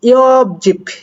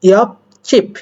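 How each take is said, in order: First: The second syllable starts with a plain consonant. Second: The second syllable starts with a tense consonant. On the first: The speaker calls it wrong. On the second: The speaker calls it right.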